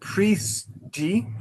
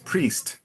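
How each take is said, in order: First: An extra vowel follows the final t sound. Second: The word ends sharply on the t sound. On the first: The speaker calls it wrong. "a very Brazilian thing to not end the w- word with a hard consonant" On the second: The speaker calls it right. "but it's priest"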